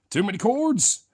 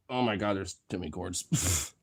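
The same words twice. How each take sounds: First: High-pitched comic whine about cords; silly mock complaint. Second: Said in the usual way.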